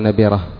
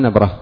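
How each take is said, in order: First: A vowel follows the b sound. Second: No vowel follows the b sound. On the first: The speaker calls it wrong. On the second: The speaker calls it right.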